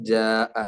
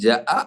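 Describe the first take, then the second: First: The first vowel is lengthened. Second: The first vowel is short. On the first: "ജാഅ ആയി" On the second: "ജഅ എന്ന് പറയുന്നതിന് പകരം"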